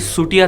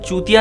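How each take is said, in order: First: The name begins with an 's' sound. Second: The name begins with a 'ch' sound. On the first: The speaker calls it right. "बल्कि सुटिया था। इसका उच्चारण सुटिया होता है।" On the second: The speaker calls it wrong. "दरअसल चूतिया नहीं था"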